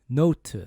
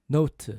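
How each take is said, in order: The two takes are said the same way.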